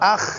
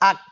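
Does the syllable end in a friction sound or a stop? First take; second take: friction; stop. First: It ends in a rough friction sound. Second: It ends in a stop with a small bounce. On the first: The speaker calls it wrong. "আখ না" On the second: The speaker calls it right. "কিন্তু আক"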